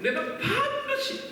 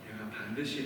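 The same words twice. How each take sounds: First: The words are said with strong, forceful emphasis. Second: The words are said plainly, without extra force. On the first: The speaker calls it right. "힘을 줘야 돼요" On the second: The speaker calls it wrong. "이게 아니고"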